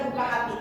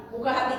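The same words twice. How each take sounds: The two takes are said the same way.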